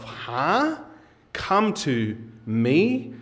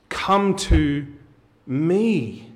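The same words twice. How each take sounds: First: Puzzled "Huh?", then "me" drawn out slowly and rising; incredulous questioning. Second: "Come to me" with a high, falling stress on "me"; pause, then land firmly on "me"; emphatic declaration. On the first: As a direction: echo it slowly as a baffled question. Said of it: "right now you're saying to yourself". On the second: Quotes Jesus' invitation emphatically. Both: Acted.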